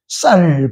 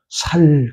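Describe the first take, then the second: First: The word starts with a tense 's' sound. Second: The word starts with a plain 's' sound. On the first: The speaker calls it right. "쌀 발음을 잘 못하잖아요" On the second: The speaker calls it wrong. "경상도 사람들이 ... 살 그러잖아요"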